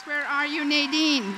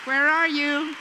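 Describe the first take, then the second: First: Loud call across the room to find her. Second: Even louder repeated call, stressing ARE. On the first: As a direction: project it, looking for her in the crowd. Calling out for Nadine in hall. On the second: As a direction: shout it out, still searching for her. Calling Nadine again, no answer. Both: Real, not acted.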